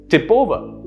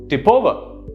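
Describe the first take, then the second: Both takes have the same delivery.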